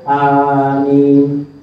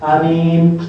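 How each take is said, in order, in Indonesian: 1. Kedua vokal dibaca panjang. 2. Hanya vokal kedua yang dibaca panjang. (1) "dua-duanya panjang, tidak ada tasydid pada mimnya" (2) "Ketika mimnya yang panjang, hamzahnya yang pendek"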